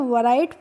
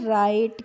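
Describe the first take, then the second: First: The word begins with a w sound. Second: The word begins with an r sound. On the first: The speaker calls it wrong. "वराइट पढ़ेंगे, नहीं" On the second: The speaker calls it right. "इसको हम पढ़ते हैं राइट"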